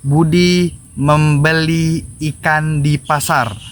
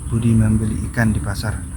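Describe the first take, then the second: First: Each word is articulated clearly and distinctly. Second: The words are articulated unclearly and indistinctly. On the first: The speaker calls it right. "artikulasi dalam berbicara kayak gitu" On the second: The speaker calls it wrong. "kalau contoh yang tidak sinkron gini"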